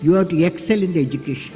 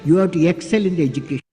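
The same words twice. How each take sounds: The two takes are said the same way.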